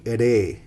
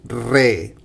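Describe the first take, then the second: First: The r sound is soft and light. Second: The r sound is strong and rolled. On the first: The r is in the middle of a word. "If it's in the middle, middle of the word, we say re" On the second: The r is at the start of a word. "the R sound goes strong"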